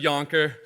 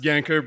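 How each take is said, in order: First: The first vowel sounds like the one in 'yonder'. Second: The first vowel sounds like the one in 'yank'. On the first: The speaker calls it right. "it's actually Yonker" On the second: The speaker calls it wrong. "pronounced Yanker"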